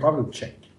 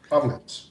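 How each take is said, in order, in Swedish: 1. Namnet slutar på ett extra 'chek'-ljud. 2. Namnet slutar på ett kort 'ets'-ljud.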